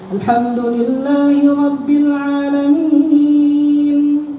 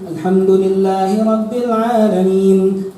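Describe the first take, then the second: First: It is recited at a slower, regular tempo. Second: It is recited at a noticeably faster tempo. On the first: This is the pace for ordinary obligatory prayer. "Kalau sholat fardu biasa saya baca" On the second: This is the pace adjusted for the congregation's preference. "Kalau salat tarawih saya lebih cepat lagi"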